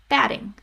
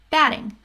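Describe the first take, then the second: First: The middle consonant is a quick D-like flap. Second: The middle consonant is a quick D-like flap.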